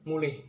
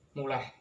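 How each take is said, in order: First: The final syllable has an 'ih' vowel. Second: The final syllable has an 'eh' vowel. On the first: "kata mulih" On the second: "dilafalkan menjadi muleh"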